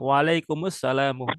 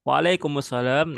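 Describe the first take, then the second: First: It ends with a final u vowel after m. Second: It ends on the m with no final vowel. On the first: "harokatnya doma" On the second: "diwakafkan bacanya tanpa membaca harokat akhir"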